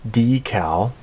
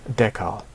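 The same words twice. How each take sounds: First: Decal with long e, DEE-kal. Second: Decal with short e, TEH-kal. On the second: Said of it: "E, as in the short sound". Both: Shown as a demonstration.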